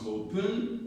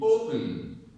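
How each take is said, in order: First: The stress is on the second syllable. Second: The stress is on the first syllable. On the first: The speaker calls it wrong. "If I put the stress on pun, it becomes" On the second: The speaker calls it right. "if I put the stress on the first syllable, which is O"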